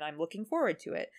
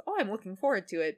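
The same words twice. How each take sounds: First: Lower, understated take on looking forward; Weevil's reserved anticipation. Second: Lightly voiced eagerness with a lifted "oh"; Yugi's open anticipation. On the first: Retold or imitated. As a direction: say it low-key, as a rival would. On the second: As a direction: look forward to it openly, mildly acted. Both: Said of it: "they have very different energy".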